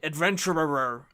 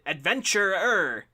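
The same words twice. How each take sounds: First: The final syllables are slurred and mumbled together. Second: Every syllable, including the end, is sharply articulated. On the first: "this weird like mumbling end" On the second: "if you overpronounce it"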